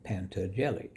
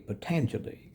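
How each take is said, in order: First: The name is said as Pantageli. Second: The name is said as Patanjali. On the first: The speaker calls it wrong. "I read it like a child would. I just read it phonetically" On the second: The speaker calls it right. "but it's actually Patanjali"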